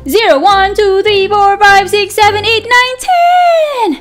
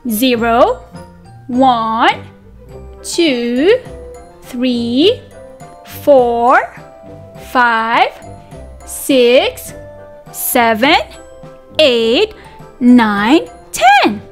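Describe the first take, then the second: First: The numbers are counted very fast. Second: The numbers are counted at a normal pace.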